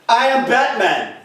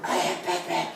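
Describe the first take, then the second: First: It is said at a higher pitch. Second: It is said at a lower pitch.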